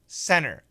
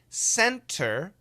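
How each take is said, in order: First: The T sound is dropped. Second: The T sound is clearly pronounced. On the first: "If we say it fast, in America, we say center. The T is gone" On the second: "That's perfect pronunciation"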